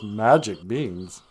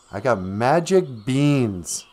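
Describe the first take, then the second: First: Slow, lower repeat of an offer; drawn-out sceptical repetition; doubtful echo. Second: Slow, drawn-out reveal of the goods; goblin's sales pitch. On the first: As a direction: echo it back slowly, unconvinced. Jack echoes the goblin's offer doubtfully. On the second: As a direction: present it as a wondrous offer. Goblin pitches beans to Jack. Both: Acted.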